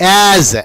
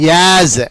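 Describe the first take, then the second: The two takes are said the same way.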